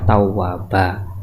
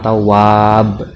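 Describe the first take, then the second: First: The word ends with a long a vowel. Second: The word ends on a bare b consonant. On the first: The tanwin is replaced by a plain fathah. The speaker calls it right. "kita baca tawwaba" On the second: The word is stopped on as a pause. The speaker calls it wrong. "jangan dibaca wakof... juga nggak boleh"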